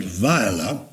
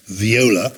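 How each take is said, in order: First: "Viola" said vy-OH-la or VY-uh-la; first-name pronunciation. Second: "viola" said vee-OH-la; different pronunciation. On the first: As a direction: say "Viola" with a first syllable like "vie". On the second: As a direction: say "viola" with a first syllable like "vee". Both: Shown as a demonstration. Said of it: "different pronunciation".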